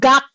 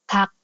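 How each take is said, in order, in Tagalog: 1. Nagsisimula ang salita sa may-tinig na g. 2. Nagsisimula ang salita sa walang-tinig na k. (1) "Hindi yan gak" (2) "ang bigkas po nito ay kak"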